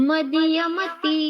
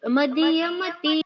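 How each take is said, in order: The two takes are said the same way.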